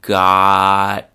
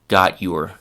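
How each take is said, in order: First: The t and y merge into a ch sound. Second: The t and y are pronounced separately. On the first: "the chewing gum part of the sentence with a few different pronunciations" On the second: "the classroom pronunciation"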